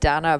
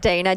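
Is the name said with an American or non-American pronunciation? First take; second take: non-American; American. First: The name is said the non-American way. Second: The name is said the American way. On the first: This is the name owner's own pronunciation. "I pronounce it Dana" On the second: This version is used when speaking to Americans. "when I tell, speak to Americans, it's like Dana"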